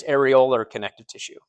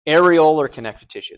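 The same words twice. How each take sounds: First: Said in the usual way. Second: "Areolar" said as air-ee-OH-ler, louder; pronunciation demo. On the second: Shown as a demonstration. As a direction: model "Areolar" clearly as air-ee-OH-ler, firmly. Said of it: "that's how you pronounce that".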